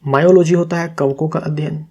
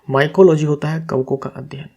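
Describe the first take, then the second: First: मायोलॉजी said as "myology", mistaken for the fungi term; misread term. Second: माइकोलॉजी said as "my-ko-logy" with a clear k; corrected term. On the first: Teacher reading a quiz answer to students, saying मायोलॉजी by mistake. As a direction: read मायोलॉजी with a clear "ma-yo" start, no k sound. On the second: Teacher correcting the quiz answer for students, saying माइकोलॉजी properly. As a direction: stress the k in माइकोलॉजी, "mai-ko". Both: Real, not acted. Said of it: "उल्टा लिख दिया मैंने".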